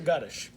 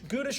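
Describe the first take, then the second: First: The name sounds like 'Guttish'. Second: The name sounds like 'Goodish'. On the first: The speaker calls it right. "It is Guttish" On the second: The speaker calls it wrong. "I've been saying it wrong"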